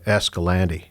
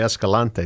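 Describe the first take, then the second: First: The name is said with a local English pronunciation. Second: The name is said with a Spanish pronunciation. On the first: This is how people who live there say it. "The locals say Escalante" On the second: This is how it is said in the original language. "in Espanol you'd say Escalante"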